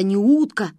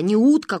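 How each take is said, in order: First: "утка" said loud again with a falling end; mocking imitation. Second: "утка" said louder and falling; mocking imitation. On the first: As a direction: repeat "утка" mockingly with a drop. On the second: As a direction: hit "утка" with a mocking drop. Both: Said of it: "передразнивала она меня".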